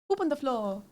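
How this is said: It is said in a put-on French accent.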